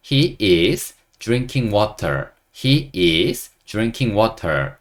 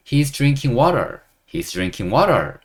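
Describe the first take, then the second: First: "He is" as two separate words, drawn out slowly; slow read-along. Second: "He is" run together as "his", "water" with a flapped T; linked contraction. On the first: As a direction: read "He is drinking water" slowly for learners to follow. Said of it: "천천히 한번 읽어보면요". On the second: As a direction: join "He is" into one syllable, "he's". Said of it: "his를 붙여서 발음하기도 합니다". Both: Shown as a demonstration.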